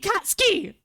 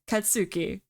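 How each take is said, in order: First: The name is said with English dub pronunciation. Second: The name is said with Japanese pronunciation. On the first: The speaker calls it wrong. "They call him fucking Katsuki" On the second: The speaker calls it right. "That is how you say his name"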